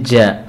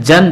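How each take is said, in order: First: The syllable ends in a lengthened vowel. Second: The syllable ends with an n sound.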